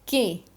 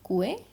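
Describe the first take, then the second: First: No u sound is heard after the k. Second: A u sound is heard after the k. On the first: The speaker calls it right. "यू यहाँ पे साइलेंट है" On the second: The speaker calls it wrong. "No."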